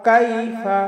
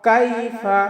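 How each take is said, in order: Both takes have the same delivery.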